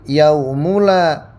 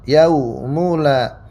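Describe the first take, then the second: First: The vowel after the m is 'u'. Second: The vowel after the m is 'u'.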